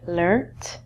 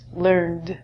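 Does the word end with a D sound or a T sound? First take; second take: T sound; D sound. First: The word ends with a T sound. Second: The word ends with a D sound. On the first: This is the British English form. "British English, we say learnt" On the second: This is the American English form. "This is going to end in a D sound"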